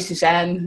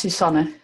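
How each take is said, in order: First: The name has an English pronunciation. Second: The name has a Dutch pronunciation. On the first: This is how most other people say it. "Most people just say" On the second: This is how the name's owner says it. "since I'm Dutch, uh, I would pronounce it as"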